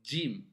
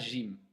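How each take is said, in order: First: The word starts with a 'dj' sound. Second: The word starts with a soft 'zh' sound. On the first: The speaker calls it right. "Les Arabes prononcent Jim" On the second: The speaker calls it wrong. "on ne dit pas Jim"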